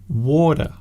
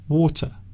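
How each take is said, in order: First: The middle consonant is a soft d. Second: The middle consonant is a clear t. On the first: "Some people use the D sound" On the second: "some people say water with the T sound"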